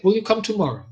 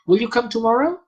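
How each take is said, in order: First: "Will you come tomorrow?" with the stress on "will" and the tune falling at the end; question falling. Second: "Will you come tomorrow?" with the pitch rising high on "tomorrow"; question rising. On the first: Lecturer demoing a falling question tune to the interviewer. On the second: Lecturer demoing a rising question tune to the interviewer. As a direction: ask "Will you come tomorrow?" with a clear upward lift at the end. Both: Shown as a demonstration. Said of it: "and if I say".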